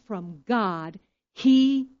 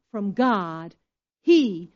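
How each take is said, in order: Both takes have the same delivery.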